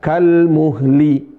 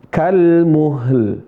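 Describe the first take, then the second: First: The word ends with l plus an i vowel. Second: The word ends on a bare l sound. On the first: The speaker calls it wrong. "Bukan kalmuhli" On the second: The speaker calls it right. "Lamnya sukun"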